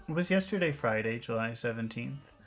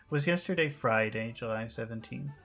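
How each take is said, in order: No difference in how they are said.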